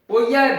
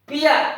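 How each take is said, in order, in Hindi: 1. अंत 'poy-a' जैसा सुनाई देता है। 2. अंत 'pee-a' जैसा सुनाई देता है। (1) "पोइया गलत है" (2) "ओनोमेटोपिया ये इसका उच्चारण है"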